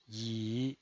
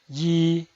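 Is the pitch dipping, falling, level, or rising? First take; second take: dipping; level. First: The pitch dips low, then rises. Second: The pitch stays high and level. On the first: "desciende primero ... para ascender luego" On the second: "El primer tono es alto y sostenido"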